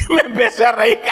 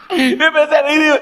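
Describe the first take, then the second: First: Words broken by real laughter; laughing. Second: Higher and brighter, amused exclamation; excited. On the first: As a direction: laugh while telling it. (riéndose de verdad) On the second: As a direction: get carried away by the memory. (emocionado y divertido) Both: Real, not acted.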